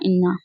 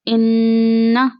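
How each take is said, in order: First: The doubled n is said without nasal holding. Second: The doubled n is held briefly in the nose. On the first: The speaker calls it wrong. "अब हम इसको ऐसे नहीं पढ़ सकते" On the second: The speaker calls it right. "नून मुशद्दद को नाक में छुपाएंगे, थोड़ी देर के लिए ठहराएंगे"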